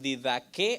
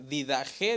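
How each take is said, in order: First: The third consonant is a hard k sound. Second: The third consonant is a throaty h sound. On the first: "algunos dicen didaque" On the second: "Didaje dicen algunos"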